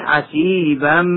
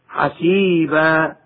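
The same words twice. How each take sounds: First: The word ends in a short -an sound. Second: The word ends in a long a sound. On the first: The reciter continues without stopping. "ويحذف وصلا" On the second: The reciter stops on this word. "مبدل حرف مد ألفا عند الوقف"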